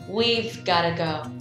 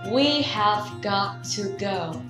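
First: The words are shortened and run together quickly. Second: Every word is said fully and separately. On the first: The speaker calls it right. "nói nhanh và nghe tự nhiên hơn rất nhiều" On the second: The speaker calls it wrong. "nói đầy đủ là we have got to go"

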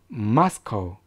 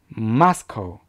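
Both takes have the same delivery.

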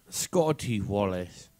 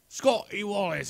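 First: The name is said in a plain, natural accent. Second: The name is said in a put-on accent.

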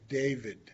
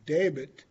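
First: The name is said with a V sound. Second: The name is said without a V sound. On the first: This is the name as spoken outside the language. "instead of David" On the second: This is the name as spoken in the language. "So we change it to David"

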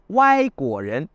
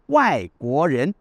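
First: The tones are the playful slang ones. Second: The tones are the ordinary Mandarin ones. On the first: A playful slang word for foreigners. "Wai de travers, pas droit. Guo Ren, les fruits à coque" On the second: The ordinary word for foreigners. "cela se dit normalement Wai Guo Ren"

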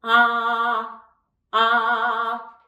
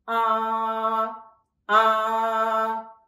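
First: It is said smiling, sounding bright. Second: It is said with a straight face, sounding dull.

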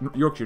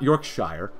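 First: It is said the local, reduced way. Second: It is said the way it is spelled. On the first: The speaker calls it right. "which I think is how you say it" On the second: The speaker calls it wrong. "not ... As an American, it looks like Yorkshire"

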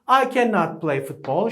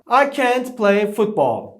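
First: The negative is said in full as two syllables. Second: The negative is contracted into one syllable. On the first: The speaker calls it wrong. "I cannot play diye kullanılmaz" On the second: The speaker calls it right. "Ne o düşüyor, t kalıyor"

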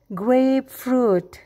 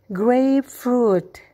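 No difference in how they are said.

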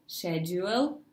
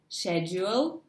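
No difference in how they are said.

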